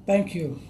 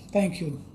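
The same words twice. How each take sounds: The two takes are said the same way.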